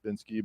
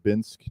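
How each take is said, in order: First: The word ends with an added ee sound. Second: The word ends on the k sound. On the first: The speaker calls it wrong. "often mispronounced Binsky" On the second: The speaker calls it right. "The E is silent"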